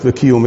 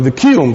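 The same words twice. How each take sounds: First: It is said in a plain everyday pronunciation. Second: It is said in an imitated traditional pronunciation. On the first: The speaker calls it wrong. "לא וקיום" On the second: The speaker calls it right. "אלא וקיום"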